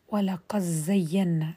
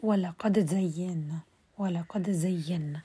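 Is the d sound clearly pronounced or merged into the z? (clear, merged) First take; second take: merged; clear. First: The d sound merges fully into the z. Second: The d sound is pronounced clearly before z. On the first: "مرة حأدغم" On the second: "ثم حأظهر"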